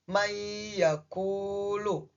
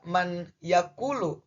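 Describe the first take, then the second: First: The n disappears into a doubled y sound. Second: The n is pronounced clearly before the y. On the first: The speaker calls it right. "tetapi dibaca mayyakulu" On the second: The speaker calls it wrong. "berarti bacanya tidak man yakulu"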